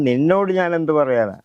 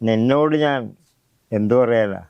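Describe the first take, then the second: First: The stress falls on the word നിന്നോട്. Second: The stress falls on the word ഞാൻ. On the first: "ചിലപ്പോൾ നീ എന്നുള്ള ആ, ആൾക്കാരിക്കണം" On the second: "മറിച്ച്"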